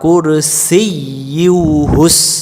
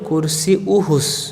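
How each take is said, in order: First: A doubled 'y' sound comes before the 'u'. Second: The 'y' sound is dropped before the 'u'. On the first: The speaker calls it right. "তাহলে আমরা বলবো" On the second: The speaker calls it wrong. "আমরা অনেকে কি বলি কুরসি উহুস, তখন এই জায়গায় ইয়া অক্ষরটা বাদ যায়"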